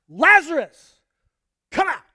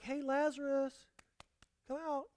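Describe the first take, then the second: First: It is shouted loudly and forcefully. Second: It is said quietly and casually.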